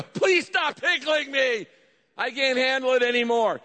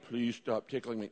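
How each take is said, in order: First: Passionate plea. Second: Mild, low and soft plea; halbherzige Bitte. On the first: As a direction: beg at full pitch as if tickled past bearing. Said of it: "And you are passionate". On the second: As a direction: ask politely, softly, without any urgency. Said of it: "No, you go". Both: Shown as a demonstration.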